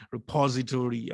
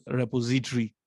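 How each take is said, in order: First: Repository the American way, stress on the second syllable, re-POZ-itory; American pronunciation. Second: Said in the usual way. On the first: Retold or imitated. Lecturer playfully quoting American friends, repository in American pronunciation. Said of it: "as my American friends would say".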